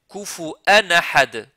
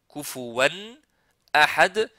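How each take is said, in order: First: A glottal stop separates the vowels in the word. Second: A w sound, with no glottal stop, joins the vowels. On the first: This is the Warsh reading. "Kufu'an, il y a hamza là" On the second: This is the Hafs reading. "il n'y a pas hamza ici"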